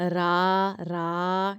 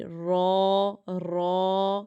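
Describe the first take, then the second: First: "را" held as a plain, open 'raa'; straight thin ra. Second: "را" held thick and rounded, like 'raw'. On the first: Teacher demonstrating the difference to pupils, straight thin ra. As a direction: say "را" thin, vowel as in 'aa'. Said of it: "یہ سیدھا ہے". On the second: Teacher demonstrating the difference to pupils, thick ra. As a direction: say "را" heavy, with an 'aw' vowel. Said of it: "یہ موٹا ہے". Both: Shown as a demonstration.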